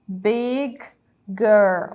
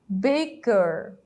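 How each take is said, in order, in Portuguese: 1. As duas palavras são ditas separadamente. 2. As duas palavras são ditas juntas.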